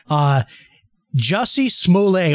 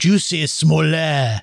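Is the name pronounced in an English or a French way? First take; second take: English; French. First: The name is pronounced in a plain English way. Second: The name is pronounced in a French way.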